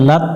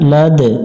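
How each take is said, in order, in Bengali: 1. শেষ ব্যঞ্জনটি সোজা থেমে যায়, t-এর মতো। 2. শেষের d কলকলা দিয়ে ছাড়তে হয়। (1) "এখানে লাত পড়ে যাবে না" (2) "প্রতিধ্বনি সৃষ্টি করতে হবে, অর্থাৎ কলকলা করতে হবে"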